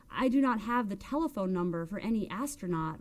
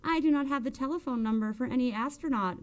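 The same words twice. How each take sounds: First: Mildly prim, measured reply; understated primness. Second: Higher-pitched mimicking of a prim speaker; mocking, raised-pitch echo; mocking mimicry. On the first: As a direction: say it properly, each word in place. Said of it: "replied Melba primly". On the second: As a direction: parrot it back to mock. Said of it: "mimicked Gigi Zuzzo". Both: A narrator's reading.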